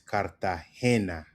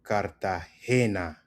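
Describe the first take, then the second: First: The stress is on the third syllable. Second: The same.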